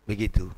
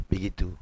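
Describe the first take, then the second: No difference in how they are said.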